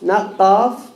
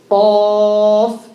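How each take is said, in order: First: The letter is sounded light and thin. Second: The letter is sounded heavy and thick. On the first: The speaker calls it wrong. "Be careful from saying qaf, not qaf" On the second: The speaker calls it right. "It's a heavy letter"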